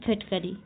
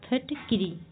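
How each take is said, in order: First: The second syllable has an 'a' vowel. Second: The second syllable has an 'i' vowel. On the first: The speaker calls it wrong. "अगला है फिटकरी" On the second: The speaker calls it right. "फिटकरी की शुद्ध वर्तनी है फिटकिरी"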